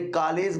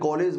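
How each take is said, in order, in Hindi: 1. पहला स्वर खुला aa जैसा लगता है। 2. पहला स्वर गोल o जैसा लगता है। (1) "तो आपने आ लगा दिया है" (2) "तो ओ लगा दिया है"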